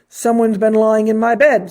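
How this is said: It is said in a deep, gruff voice.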